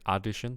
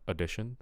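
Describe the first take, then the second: First: The first vowel is a full, unreduced vowel. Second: The first vowel is a reduced schwa. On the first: The speaker calls it wrong. "I'm hearing addition" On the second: The speaker calls it right. "we want addition. So a schwa"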